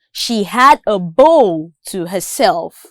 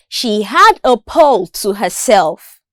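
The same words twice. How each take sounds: First: Bowl begun with a voiced B; B sound. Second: Pole begun with a clear puffed P; P sound. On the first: Listening practice for learners, clear B in bowl. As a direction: make the B in bowl distinct from P. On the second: Listening practice for learners, crisp P in pole. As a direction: make the P in pole distinct from B. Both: Shown as a demonstration. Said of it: "listening practice with respect to the consonant sounds".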